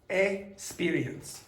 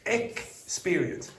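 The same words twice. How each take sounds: First: The x is said as one sound. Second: The x is said as two sounds. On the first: The speaker calls it wrong. "So there's only one sound" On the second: The speaker calls it right. "when you have that X, you have two sounds"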